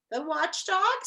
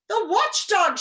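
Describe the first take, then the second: First: Puzzled rising question on watchdog; quizzical. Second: High, loud panicked cry; frightened shout. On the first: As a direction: ask it, curious and puzzled. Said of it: "said Milo quizzically". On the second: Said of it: "shouted another". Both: A narrator's reading.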